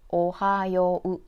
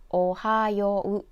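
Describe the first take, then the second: No difference in how they are said.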